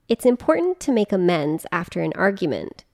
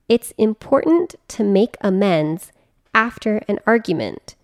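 First: It is read at a normal pace. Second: It is read at a slower pace.

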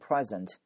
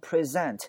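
First: The stress is on the first syllable. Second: The stress is on the second syllable. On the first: It is a noun or adjective meaning gift or current. "如果它是名词或形容词，读成present" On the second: It is a verb meaning to show or present. "重音放到z 这个声音这个位置"

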